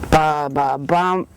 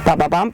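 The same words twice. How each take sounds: First: The rhythm is slow and labored. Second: The rhythm is quick and hurried.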